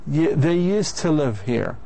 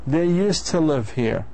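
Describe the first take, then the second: Both takes have the same delivery.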